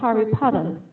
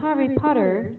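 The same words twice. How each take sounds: First: It is said with a British accent. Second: It is said with an American accent. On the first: The speaker calls it right. "they would say" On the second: The speaker calls it wrong. "They don't say"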